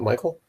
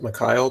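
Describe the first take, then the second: First: The name is said as My-kul. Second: The name is said as Mee-kha-eel. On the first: This is how the person actually says it. "but he pronounced it Michael" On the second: This is how the spelling suggests it is said. "It looks like he might pronounce it Mikhail"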